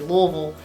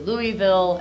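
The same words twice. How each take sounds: First: It is said in the local Louisville way. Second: It is said in an outsider's way. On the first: The speaker is from the city. "people from Louisville, uh, like me, will say Louisville" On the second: The speaker is not from the city. "as opposed to Louisville"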